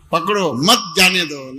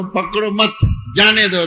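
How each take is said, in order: First: पकड़ो set apart, then मत जाने दो as one unit; pause after पकड़ो. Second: पकड़ो मत together, pause, then जाने दो louder; pause after मत. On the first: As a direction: slowly, break after पकड़ो and lean on मत. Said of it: "लेकिन इस तरह से नहीं बोले". (पकड़ो, रुककर मत जाने दो) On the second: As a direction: break the phrase after मत and push out जाने दो. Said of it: "आपको प्रोनाउंस ही सही करना है". (पकड़ो मत, रुककर ज़ोर से जाने दो) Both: Shown as a demonstration.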